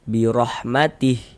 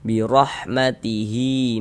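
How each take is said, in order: First: It ends on a silent h with no vowel. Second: It ends on a long drawn-out i vowel. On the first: The reader stops at this word. "kita berwakaf di huruf H ... huruf H kita sukunkan, kita matikan" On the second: The reader continues into the next words. "kita wasolkan ... berlaku tanda panjangnya"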